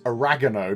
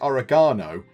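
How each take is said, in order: First: It is said with an American pronunciation. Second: It is said with a British pronunciation. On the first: "because Kirk says it, he says oregano" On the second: "in the U K, we'd say oregano"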